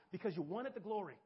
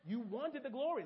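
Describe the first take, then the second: First: Said in the usual way. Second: Glory pressed home with a falling tune; stress on glory. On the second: Shown as a demonstration. Preacher repeating it to his church, pressing on glory. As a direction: lean on glory to drive it in.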